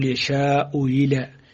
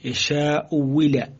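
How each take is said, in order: First: The second hamza is softened toward a y. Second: The second hamza is replaced by a clear w. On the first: "هو تسهيل الثانية بينها وبين الياء، فتقول يشاء إلى" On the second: "أشهرهما هو إبدال الثانية واوا، تقول يشاء ولا"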